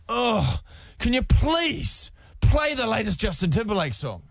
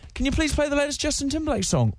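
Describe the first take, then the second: First: It sounds negative and annoyed. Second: It sounds positive and friendly.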